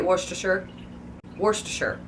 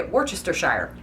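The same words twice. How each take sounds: First: Worcestershire as WOR-stuh-sher; three syllables in Worcestershire; own pronunciation. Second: Worcestershire as wor-CHESS-ter-shire; Worcestershire spelled out as wor-chester-shire; as written. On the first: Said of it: "I say it". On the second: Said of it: "strictly how it's written". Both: Shown as a demonstration.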